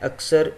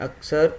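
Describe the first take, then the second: The two takes are said the same way.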